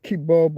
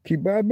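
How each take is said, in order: First: "kebab" said kih-BOB; North American pronunciation. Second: "Kebab" said kih-BAB; British pronunciation. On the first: Streamer reading out the variant spellings, North American pronunciation. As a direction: say "kebab" to rhyme with job. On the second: Streamer reading out the variant spellings, British pronunciation. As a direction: say "Kebab" to rhyme with cab. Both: Shown as a demonstration. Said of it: "English films for the same dish".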